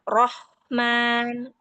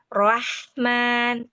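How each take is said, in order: First: The first vowel stays a thick, rounded o. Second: The first vowel opens toward a plain a. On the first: The speaker calls it right. "tidak rahman tapi rohman" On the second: The speaker calls it wrong. "Kalau misalnya dia terbuka gini bunyinya"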